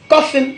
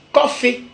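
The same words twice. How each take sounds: First: "coffin" closing on an n; English pronunciation. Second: "coffee" as ko-fé, no final n; Godié pronunciation. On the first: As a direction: say ko-fen for "coffin". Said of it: "qui en anglais signifie cercueil". (« coffin » à l'anglaise, avec le n final) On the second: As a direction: drop the n, end open on é. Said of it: "En godié, nous on dit". (« coffee » à la godié, prononcé ko-fé) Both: Shown as a demonstration.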